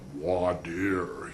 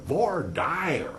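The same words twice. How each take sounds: First: It is said the Chicago way. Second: It is said the cowboy-country way.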